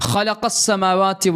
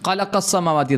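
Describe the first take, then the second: First: The first consonant is a throaty kh sound. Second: The first consonant is a hard q sound. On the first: The speaker calls it right. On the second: The speaker calls it wrong.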